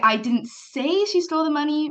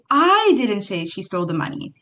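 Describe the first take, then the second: First: The stress falls on the word say. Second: The stress falls on the word I. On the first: It was implied but not said. "means maybe you implied it" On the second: Somebody else said it. "if you inflict the word I"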